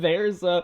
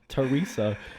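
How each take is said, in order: First: The name begins like the word 'there'. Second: The name begins with a light 'tuh' sound. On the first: The speaker calls it wrong. "Cause I read it like that" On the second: The speaker calls it right. "no, it's Teresa"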